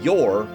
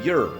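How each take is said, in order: First: The word is said fully, like 'yore'. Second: The word is reduced, like 'yer'. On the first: It is the proper, standard form. "which would be proper English" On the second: It sounds more casual. "they say your"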